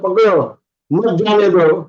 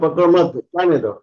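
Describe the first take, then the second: First: The pause comes right after 'pakdo'. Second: The pause comes right after 'mat'. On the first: Catch him, don't let him go. The speaker calls it right. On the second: Don't catch him, let him go. The speaker calls it wrong.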